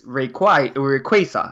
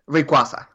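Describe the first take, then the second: First: The name is said with an English pronunciation. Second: The name is said with a Spanish pronunciation. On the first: "it's supposed to be from Quasar" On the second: "we would call it Rayquaza"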